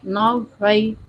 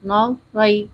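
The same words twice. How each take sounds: Both takes have the same delivery.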